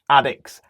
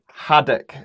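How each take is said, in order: First: The word starts without an h sound. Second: The word starts with a clear h sound.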